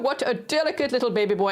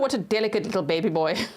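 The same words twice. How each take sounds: First: It is said in a put-on British accent. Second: It is said in the speaker's ordinary accent.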